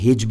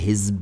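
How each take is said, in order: First: The middle consonant is a j sound. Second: The middle consonant is a z sound. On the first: The speaker calls it wrong. "हिज्ब नहीं" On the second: The speaker calls it right. "इसमें नुक्ते हैं"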